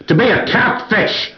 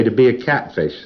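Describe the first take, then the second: First: Mock shouted goal. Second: Said in the usual way. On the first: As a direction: yell the goal at the PC to force a read. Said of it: "that didn't read either". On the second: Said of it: "this is something that auditors do".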